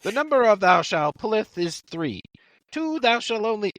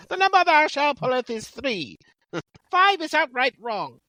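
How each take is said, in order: First: High, mock-solemn scripture reading; Monty Python recitation. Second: Put-on very high Monty Python accent; put-on comic accent. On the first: Quoting the wrong fantasy before part three, mock-solemn recitation. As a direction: intone it high like comic holy writ. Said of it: "Monty Python?". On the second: Co-host asked for an accent, very high comic accent. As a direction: recite it in a silly, high-pitched accent. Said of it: "read it in an accent".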